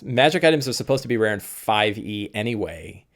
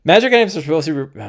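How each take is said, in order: First: Said in the usual way. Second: Rushed, words tumbling into each other; talking too fast. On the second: Real, not acted. Streamer rushing through his point about magic items, talking too fast. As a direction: race through it, higher and louder, until it jams. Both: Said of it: "I'm talking too fast".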